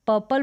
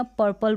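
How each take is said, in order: First: First "पर्पल" as "puh-pal", without r; silent r. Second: "पर्पल" with a little r before the second p; slight r. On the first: Teacher offering one valid form, "पर्पल" without r. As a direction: drop the r from "पर्पल". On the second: Teacher offering the other form, "पर्पल" with r. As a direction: let some r sound in "पर्पल". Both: Shown as a demonstration. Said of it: "थोड़ा सा र का sound आएगा".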